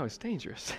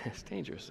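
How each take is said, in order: First: Said in the usual way. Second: Laughing whisper. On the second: Real, not acted. Repeats it laughing softly.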